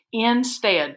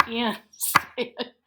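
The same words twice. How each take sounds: First: Said in the usual way. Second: "Instead" split into in, pause, stead, softly; syllable by syllable. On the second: Shown as a demonstration. Teacher pounding out syllables for pupils, "Instead" split in two. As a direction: break "Instead" apart while fighting laughter. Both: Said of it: "Pound it".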